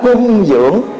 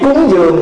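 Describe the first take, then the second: First: The first syllable has a level tone. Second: The first syllable has a rising tone. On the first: It means to supply and nourish someone. The speaker calls it right. "đọc cái cách đúng là cung dưỡng" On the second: This is the everyday way of saying the term. The speaker calls it wrong. "Chữ cúng dường mà đúng"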